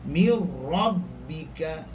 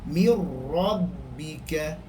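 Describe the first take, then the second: Both takes have the same delivery.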